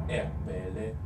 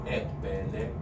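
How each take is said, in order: No difference in how they are said.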